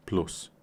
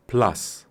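First: "plus" said the Polish way, as "ploos"; Polish pronunciation. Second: "Plus" said the English way, as "plas"; English pronunciation. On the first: Teacher translating into Polish, Polish pronunciation. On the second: Teacher giving the English noun, English pronunciation. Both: Shown as a demonstration. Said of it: "rzeczowniki w języku angielskim".

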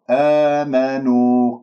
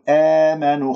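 First: آمنوا with a long, open "aa" at the start; correct open alif. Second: آمنوا with the long aa tilted toward "ee" as in "emanu"; wrong opening vowel. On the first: Teacher gives the correction: slow, open aa in آمنوا. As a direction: open the first vowel of آمنوا and hold it slowly. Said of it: "خطأ، آمنوا". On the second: Teacher shows what not to say: آمنوا with a fronted first vowel. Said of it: "لا تقل آمنوا، خطأ". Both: Shown as a demonstration.

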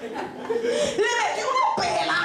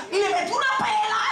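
First: Slow, high repeat stretching "pela"; high-pitched, lingering emphasis on "pela"; drawn-out punchline. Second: High-pitched, quick punch on "pela"; storyteller's high-pitched emphatic hit; emphatic punchline. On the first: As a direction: draw out "pela" for the laugh. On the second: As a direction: deliver "pela" as a raised punchline. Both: Retold or imitated. Punchline repeated more slowly for emphasis.

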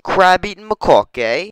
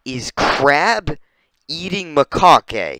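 First: High, loud British lilt with rising end; mock British accent. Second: Said in the usual way. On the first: Repeating the monkey's name in mock British accent. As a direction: say it in hammed-up British. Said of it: "It's British". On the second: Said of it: "Its name".

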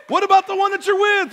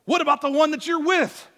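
First: Higher, louder challenge on "What about the one that you're with?"; emphatic repeat. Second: Said in the usual way. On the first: Shown as a demonstration. Preacher challenging men in the congregation, louder and higher. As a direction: push the repeat up and out.

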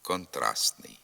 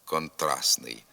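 First: Контрастний with a faint т before н; only hint at the second т in Контрастний; weakened т. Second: Контрастний with no т before н; silent т. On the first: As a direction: barely release the т before н in Контрастний. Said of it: "вимовляється ослаблено". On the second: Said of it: "або зовсім не вимовляється". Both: Shown as a demonstration.

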